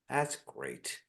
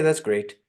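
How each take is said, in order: First: It is said warmly and sincerely, unhurried. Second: It is said quickly and dismissively, rushed. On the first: The praise is genuinely meant. The speaker calls it right. "Like they meant it and they're present" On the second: The praise is brushed off without attention. The speaker calls it wrong. "They were just sort of rushing it off"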